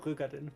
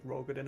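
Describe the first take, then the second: First: The name is pronounced with a German-style vowel. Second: The name is pronounced with an English-style vowel.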